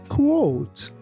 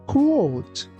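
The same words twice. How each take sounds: Both takes have the same delivery.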